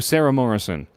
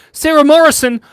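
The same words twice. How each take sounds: First: Said in the usual way. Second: Name called out high and loud; excited shout-out. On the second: Real, not acted. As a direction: call the donor's name with a loud, happy cheer.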